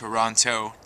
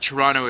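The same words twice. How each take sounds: First: It is said the way outsiders say it. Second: It is said the way locals say it. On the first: The speaker is not from there. "We know if you're not from here, of course, if you say it as Toronto" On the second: The speaker is from there. "if you're local"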